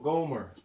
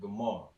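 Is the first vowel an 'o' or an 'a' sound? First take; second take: o; a. First: The first vowel is an 'o' sound. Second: The first vowel is an 'a' sound. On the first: This is the English form of the name. "in English" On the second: This is the original Hebrew form of the name. "In the Hebrew, you would have pronounced it"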